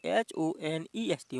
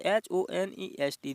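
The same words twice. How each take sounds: First: Slow teacher spelling of H O N E S T. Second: Said in the usual way. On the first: Shown as a demonstration. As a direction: spell out H O N E S T slowly, letter by letter. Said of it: "इसमें क्या दिया हो". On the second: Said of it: "तो इसमें क्या दिया हुआ है".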